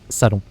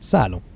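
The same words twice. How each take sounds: First: Both syllables carry equal weight, with no stress. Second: One syllable is clearly stressed over the other. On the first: This is the French way of saying it. "we don't use stresses in French, so that would be salon" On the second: This is the English way of saying it. "in English, you do have to stress one syllable, so it becomes salon"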